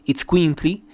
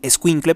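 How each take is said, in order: First: The word is said as itzcuintli, starting with itz. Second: The word is said as escuincle, starting with es. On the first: This is the original form of the word. The speaker calls it right. "pero es Itzcuintli" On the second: This is the everyday local form of the word. The speaker calls it wrong. "aquí en México se dice, lo dicen escuincle"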